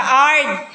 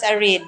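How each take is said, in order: First: Arid squashed into one syllable, "ard"; wrong pronunciation demonstrated. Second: Arid said in two syllables, a-rid; correct pronunciation demonstrated. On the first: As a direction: say "ard" with the i dropped. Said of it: "Di siya ard". (maling bigkas na "ard", isang pantig lang) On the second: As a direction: model "arid" with a clear -rid. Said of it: "this is pronounced as arid". (tamang bigkas ng "arid": a-rid) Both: Shown as a demonstration.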